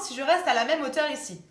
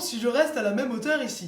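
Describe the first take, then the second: First: The voice has its usual, brighter resonance. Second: The voice has a darker, deeper resonance.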